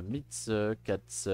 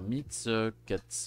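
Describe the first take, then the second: The two takes are said the same way.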